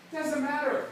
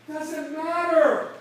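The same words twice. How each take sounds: First: Said in the usual way. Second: Slow and louder, leaning hard on "doesn't matter"; slow emphatic. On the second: Shown as a demonstration. Speaker dismissing the rejections, slow emphatic stress. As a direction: drag out "doesn't matter", punching "matter" with a falling tune. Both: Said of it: "when they tell you no".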